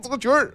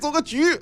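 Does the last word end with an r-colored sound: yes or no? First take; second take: yes; no. First: The last word ends with an r sound. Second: The last word ends without an r sound. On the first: The speaker calls it wrong. "不组个局儿啊" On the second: The speaker calls it right. "你别加儿化音了"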